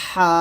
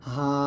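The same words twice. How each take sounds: First: "হা" squeezed from mid-throat; pressed. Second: "হা" from the start of the throat; normal, unpressed. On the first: Teacher showing a pressed letter, tight narrowed "হা". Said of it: "দুটোর মধ্যে চাপ দিতে হবে". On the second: Teacher showing the unpressed partner letter, open "হা". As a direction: breathe out "হা" without any squeeze. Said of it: "Hamza এবং এ হা". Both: Shown as a demonstration.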